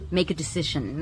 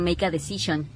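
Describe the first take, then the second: First: The k of make runs into decision. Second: Each word is said separately and carefully. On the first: The speaker calls it right. "Vas a conectar la k de make a la d de decision" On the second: The speaker calls it wrong. "No estoy diciendo make a decision"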